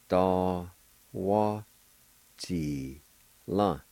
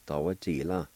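First: "Da... wa... Ji... la" with a pause after each syllable. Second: "Da, wa, ji, la" run together as one word; joined-up pronunciation. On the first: Teacher showing learners the word for elm, "Da, wa, Ji, la" syllable by syllable. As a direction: sound out "Da, wa, Ji, la" piece by piece. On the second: Teacher showing learners the word for elm, "Da, wa, ji, la" joined up. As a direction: say "Da, wa, ji, la" without breaks. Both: Shown as a demonstration. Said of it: "is pronounced like this".

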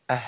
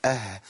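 First: "آه" with the final ه lost, only breath; dropped haa. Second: "آه" with an audible, running final ه; flowing voiced haa. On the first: Teacher shows students what is not allowed, haa dropped. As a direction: cut the voice before the ه of "آه". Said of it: "ما ينفعش أقول آه". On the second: Teacher shows the correct still haa, sound flowing. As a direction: carry the sound on into the ه of "آه". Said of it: "سامعين الصوت اللي جري؟". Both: Shown as a demonstration.

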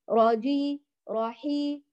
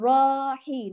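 First: راجي and راحي with a brief first vowel; short ra, straight on. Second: راحي with the raa dragged out; lengthened ra. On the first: Teacher corrects students' lengthening, short direct ra. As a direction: go straight from ra to the next letter in راحي. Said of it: "مباشرة". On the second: Teacher shows what not to say, dragged ra. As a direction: hold the first vowel of راحي far too long. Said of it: "لا تطيلي صوت الراء". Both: Shown as a demonstration.

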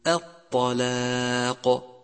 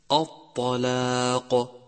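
First: الطلاق with a light opening hamza, chanted slowly. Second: الطلاق with the hamza darkened, chanted slowly; heavy hamza. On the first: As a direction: keep the hamza of الطلاق thin. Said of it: "والصواب أن تقول". (همزة مرققة صحيحة) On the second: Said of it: "لاحظ الفرق". (همزة مفخمة خطأ) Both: Shown as a demonstration.

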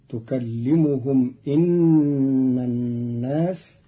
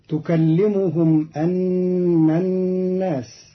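First: إن said inna, with i on the hamza; slow recitation with إن as inna; kasra on the hamza. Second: أن said anna, with a on the hamza; slow recitation with أن as anna; open hamza in أن. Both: Shown as a demonstration. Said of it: "أن بكسر الهمزة".

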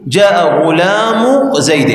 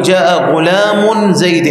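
First: "غلام" drawn out slowly, ending in -u with no n; without tanween. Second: "غلام" wrongly ending in -un before "زيد"; wrong tanween. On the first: Grammar teacher showing correct annexation, "غلام" slowly ending in bare -u. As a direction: end "غلام" on a bare u before "زيد". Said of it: "بدون تنوين". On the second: Teacher showing the forbidden form, "غلام" with an audible -un. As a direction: hold an n at the end of "غلام". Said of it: "ولا يصح أن تقول". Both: Shown as a demonstration.

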